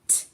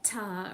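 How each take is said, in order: First: The consonant is said alone with no vowel. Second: The consonant is followed by a vowel sound. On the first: The speaker calls it right. "just the sound in isolation" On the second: The speaker calls it wrong. "Don't put a vowel on it"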